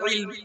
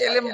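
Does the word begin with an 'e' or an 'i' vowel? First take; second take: i vowel; e vowel. First: It begins with an 'i' vowel and ends in a cluster. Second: It begins with an 'e' vowel and has two syllables. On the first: This is the original Arabic pronunciation. "Actual আরবি উচ্চারণ করলে হয় ইলম" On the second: This is the customary local pronunciation. "এলেম বলছি আমরা প্রচলিত ভাবে"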